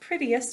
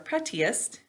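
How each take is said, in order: First: The word is said naturally, with reduced sounds. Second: Each part of the word is said carefully and distinctly.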